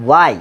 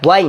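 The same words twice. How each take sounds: First: "why" said as "wai", straight on w; W without h. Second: "why" said as "hwain", h before the w; mistaken h pronunciation. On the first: Teacher gives students the real pronunciation, w without h. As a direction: open "why" on a pushed w, no h. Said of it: "উচ্চারণটা হচ্ছে why". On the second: Teacher rejects the old way, mistaken h pronunciation. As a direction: open "why" on a breathed h. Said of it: "উচ্চারণটা why না". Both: Shown as a demonstration.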